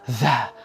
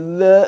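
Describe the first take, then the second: First: The air is blown out strongly. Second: The sound is held back and constricted. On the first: "udaranya tidak berhembus deras menjadi" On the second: "tidak perlu ditahan suaranya menjadi"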